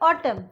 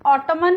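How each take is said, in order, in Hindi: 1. शब्द m पर खत्म होता है, उसमें n नहीं है। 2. शब्द के अंत में एक सुनाई देने वाली n ध्वनि है। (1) "यहाँ पे हम बोलते हैं ऑटम" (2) "ऑटमन नहीं बोलते हम"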